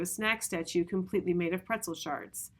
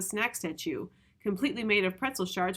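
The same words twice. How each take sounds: First: It runs on without a pause after 'statue'. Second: There is a pause after 'statue'. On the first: The phrase is grouped by sense, not by rhyme. The speaker calls it right. "It's not rhyme speak when you do it here" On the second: The rhyming lines are grouped together. The speaker calls it wrong. "you could read it as ... it's sort of rhyme speak"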